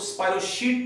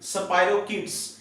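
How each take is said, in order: First: The middle consonant is a 'sh' sound. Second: The middle consonant is a 'k' sound. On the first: The speaker calls it wrong. "कुछ लोग स्पाइरोशीट पढ़ते हैं, शीट नहीं पढ़ना" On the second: The speaker calls it right. "क्या पढ़ना है जी?"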